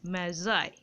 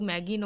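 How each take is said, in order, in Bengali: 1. মাঝের ব্যঞ্জনটি একটি j ধ্বনি। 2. মাঝের ব্যঞ্জনটি একটি শক্ত g ধ্বনি। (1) "এই উচ্চারণটা হবে অনেকটা এরকম" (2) "এই উচ্চারণটা কিন্তু ম্যাগি নয় যেটা খাও সে উচ্চারণ করে দিও না"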